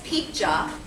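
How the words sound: The middle consonant is a j sound.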